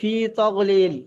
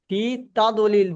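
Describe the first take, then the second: First: The second word has a 'gh' sound. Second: The second word has a 'd' sound. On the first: The speaker calls it wrong. "আপনি বলছেন ফি তগলিল" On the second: The speaker calls it right. "দদ আছে"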